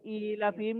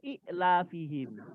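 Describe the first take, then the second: First: The first vowel is long, with no glottal stop. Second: A short vowel is followed by a glottal stop. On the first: This is the form as read. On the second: This is the underlying original form.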